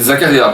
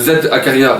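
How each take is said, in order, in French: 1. Il commence par un son z simple, dit en douceur. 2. Il commence par le nom de la lettre épelé, puis Akaria. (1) "Non, vous dites Zakaria" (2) "Vous dites pas Z, euh, Z Akaria"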